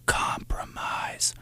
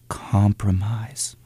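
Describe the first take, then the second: First: It is said in a whisper. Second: It is spoken in a normal voice.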